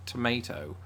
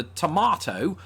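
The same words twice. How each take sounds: First: TOMATO as "to-MAY-to"; American MAY in TOMATO. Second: TOMATO as "to-MAH-to"; British MAH in TOMATO. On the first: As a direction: say TOMATO with a deliberate AY. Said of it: "disappointed the crap out of her by saying". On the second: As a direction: say TOMATO with a long AH. Expected British version before the twist. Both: Shown as a demonstration.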